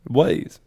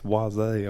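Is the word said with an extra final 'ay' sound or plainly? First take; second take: plain; final ay. First: The word ends plainly on a 'z' sound. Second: The word ends with an extra 'ay' vowel sound. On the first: The speaker calls it right. "It's just Waze" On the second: The speaker calls it wrong. "There's no apostrophe over the E"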